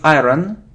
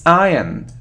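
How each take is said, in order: First: An r sound is pronounced in the word. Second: No r sound is pronounced in the word. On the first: The speaker calls it wrong. "It isn't iron" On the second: The speaker calls it right. "it's iron ... So we don't hear r"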